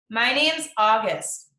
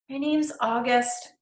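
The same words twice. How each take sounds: First: It is said louder and clearer. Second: It is mumbled quietly.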